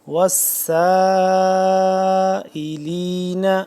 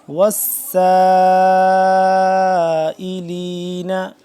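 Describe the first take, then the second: Both takes have the same delivery.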